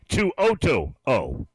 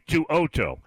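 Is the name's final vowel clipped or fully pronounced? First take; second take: full; clipped. First: The final vowel of the name is fully pronounced. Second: The final vowel of the name is clipped short. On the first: The speaker calls it right. "You got to finish the word" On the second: The speaker calls it wrong. "It's not Henry Tuoto"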